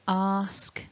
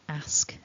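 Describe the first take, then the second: First: The vowel is a long open 'ar' sound. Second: The vowel is a short flat 'a' sound. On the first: This is the standard dictionary form. "the standard form that you're aiming for" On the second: This is how the speaker's home region says it. "So I would pronounce these words ask, ... based on where I'm from"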